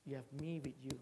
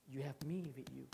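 First: Softer, voiced and gentle. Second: Whispered, unvoiced and intimate. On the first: Preacher repeats God's promise to the congregation, soft and voiced. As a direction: say it softly but aloud. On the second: Preacher voices God telling the struggler he is near, whispered. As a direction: breathe it as a secret promise. God's words repeated softly.

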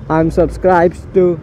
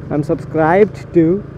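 Both takes have the same delivery.

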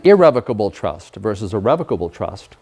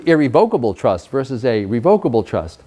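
First: Irrevocable as ih-REV-uh-kuh-bul, revocable as REV-uh-kuh-bul; stress on second-last-but-one syllable. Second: Irrevocable as ih-ree-VOKE-uh-bul, revocable as ree-VOKE-uh-bul; long-o pronunciation. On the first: Lawyer defining trust terms, irrevocable said ih-REV-uh-kuh-bul. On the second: Lawyer repeating the trust terms, irrevocable said ih-ree-VOKE-uh-bul. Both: Shown as a demonstration. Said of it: "you can pronounce it revocable or revocable".

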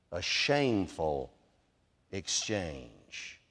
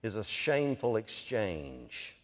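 First: Shameful exchange again, slower, falling to a low quiet exchange; slower emphatic repeat. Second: SHAMEFUL drawn out slow and low, then exchange; stress on shameful exchange. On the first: Preacher repeating to the church, slow and low. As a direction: let it sink in, dropping low. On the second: Preacher stressing to the church shameful exchange slowly. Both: Shown as a demonstration. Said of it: "what I wanted to strongly emphasize".

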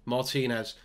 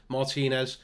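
The two takes are said the same way.

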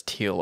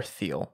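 First: Thiel with a hard T, like "teel". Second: Thiel with a TH as in "thin"; soft TH. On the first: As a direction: say Thiel starting on a plain T sound. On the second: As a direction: say Thiel starting on an English th sound, "theel". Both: Shown as a demonstration. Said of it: "not sure if it's Thiel or Thiel".

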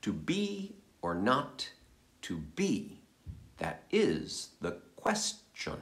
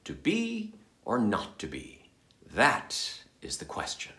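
First: Slow, pauses after "not" and "to be?", stress on "is"; new phrasing. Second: Familiar rhetorical to be or not to be; usual reading. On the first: Actor trying a new scansion of the famous line, slow and soft. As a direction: weigh "is", let "That is the question" land slow and quiet. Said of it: "What if". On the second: Reciting the line the way audiences usually hear it, flat and familiar. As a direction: stress on the second "be" as a question. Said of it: "Here's the way you're used to hearing that line". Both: Shown as a demonstration.

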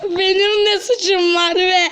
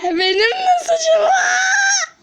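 First: Said in the usual way. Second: Much higher, slow shouted protest; high drawn-out cry of protest; wailing shout. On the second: Acted.

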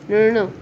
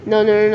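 The two takes are said the same way.

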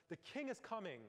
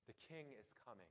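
First: Raised, high proclamation of a herald; herald calling out. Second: The herald's cry now soft and far quieter; fading herald call. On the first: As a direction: call it out to the whole square like a royal herald. Herald runs into town square. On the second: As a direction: let the announcement fade almost to a murmur. Herald's call dies away. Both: Retold or imitated.

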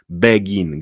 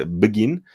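First: "begin" as BEH-gin, every vowel sounded; distinctly pronounced first syllable in "begin"; over-clear begin. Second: "begin" as bgin, consonants run together; barely-there first syllable in "begin"; reduced begin. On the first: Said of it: "jest wyraźnie wymówione". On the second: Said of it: "mówcie bardzo szybko". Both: Shown as a demonstration.

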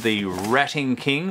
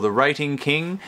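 First: Rating said with a short a, like "ratting"; short-vowel Rating, as in "rat"; alternative pronunciation. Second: Rating said with a long a, like "rate"; long-vowel Rating, as in "rate"; alternative pronunciation. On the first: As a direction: say Rating to rhyme with "batting". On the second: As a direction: say Rating to rhyme with "skating". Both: Shown as a demonstration. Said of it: "how you want to pronounce that".

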